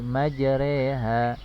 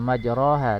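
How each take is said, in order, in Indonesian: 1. Vokal di tengah dibaca seperti e. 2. Vokal di tengah dibaca seperti a. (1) "tapi majreha" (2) "Bukan dibaca majroha"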